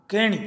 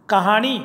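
First: कहणी with retroflex ṇ; Malwi kahni. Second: कहानी with a dental n; Hindi kahani. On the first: Teacher giving the Malwi form, कहणी with ṇ. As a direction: curl the tongue for ṇ in कहणी. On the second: Teacher giving the Hindi word, कहानी with n. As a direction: say कहानी with plain n. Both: Shown as a demonstration. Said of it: "अण में बदल जाता है".

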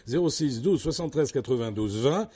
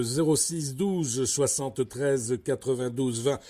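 First: Said in the usual way. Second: Slow, spelling out the phone number; slow dictation. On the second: Real, not acted. Host giving the listeners the number, slow and deliberate. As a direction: read each digit slowly so they can write it down. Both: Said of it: "je le répète".

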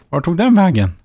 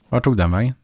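First: Higher and louder, baffled exasperation; where on earth did it go?; exasperated. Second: Said in the usual way. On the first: Real, not acted. Streamer can't find his sold truck, exasperated and louder.

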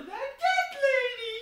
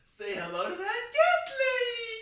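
First: Much higher, much louder squeal; squealing shout. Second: Much higher, much louder squeal again in the same way; squealing shout. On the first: Squeals line loudly, twice. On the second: Repeats the squealed line. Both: Real, not acted. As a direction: squeal it at the top of your lungs.

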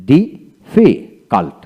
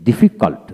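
First: difficult very slowly, a gap after each syllable; broken into syllables. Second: Said in the usual way. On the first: Shown as a demonstration. Teacher showing learners how difficult is built, slow and broken up. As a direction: split difficult into separate beats. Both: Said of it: "এইভাবে ভেঙে ভেঙে".

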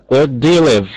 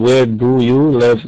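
First: Where do you live run together as wɛɹ dujulɪv; linked model version. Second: Where do you live said slow, each word apart; not the linked form: where do you live word by word; slow wrong version. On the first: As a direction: link do you live smoothly into one flow. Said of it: "مش بقول ... لا". (نطق موصول سريع) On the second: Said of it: "مش بقول". (نطق بطيء مفصول لكل كلمة) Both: Shown as a demonstration.

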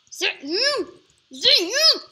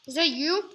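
First: High, loud sing-song; mock sing-song taunt at an opponent; sing-song call. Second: Loud teasing call. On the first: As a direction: call it out higher and louder each time. Rising mock calls. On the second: Pretend. Teasing rising calls.

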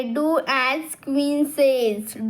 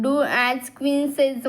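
First: Put-on very slow, word by word, like reading to children. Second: Said in the usual way. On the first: Shown as a demonstration. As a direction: spell out "Do as queen says." slowly for kids. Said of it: "Do as queen says म्हणजे काय?". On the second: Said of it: "म्हणजे काय?".

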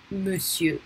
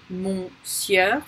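First: Monsieur said as muh-syuh; correct French pronunciation. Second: Monsieur read by its spelling, as mon-sieur; spelled-out mispronunciation. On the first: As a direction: say monsieur with a short "muh", silent R. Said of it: "but monsieur". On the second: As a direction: say monsieur wrongly, with a nasal "mon" first. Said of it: "We don't say monsieur following the spelling". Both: Shown as a demonstration.

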